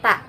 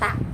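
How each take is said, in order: First: The tongue tip touches behind the upper teeth. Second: The tongue comes out between the teeth. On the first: The speaker calls it right. "tempat keluar ta itu adalah ujung lidah dengan pangkal gigi seri atas" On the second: The speaker calls it wrong. "banyak juga di huruf ta itu keluar lidah. Jadi ta, banyak yang mengucapkan begitu. Nah itu kurang tepat"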